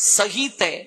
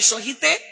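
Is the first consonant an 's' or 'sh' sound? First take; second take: s; sh. First: The first consonant sounds like English s. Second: The first consonant sounds like English sh. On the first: This is the Sanskrit pronunciation. "সংস্কৃতে উচ্চারণ করলে" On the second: This is the Bengali pronunciation. "Bangla ব্যাকরণে"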